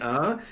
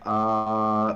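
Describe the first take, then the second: First: The pitch sinks down low. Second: The pitch stays level throughout. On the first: The speaker finds something too weird. "like this kind of sinking" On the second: The speaker is thinking about something. "the first tone is like, ah, uh, like you're thinking about something"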